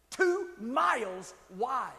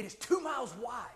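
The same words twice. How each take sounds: First: TWO MILES WIDE, each word drawn out slowly; emphatic repeat. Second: Said in the usual way. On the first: Real, not acted. Preacher stressing the waterfall's size, "Two miles wide" slow and emphatic. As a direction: stretch out "Two", "miles" and "wide" with spaces between.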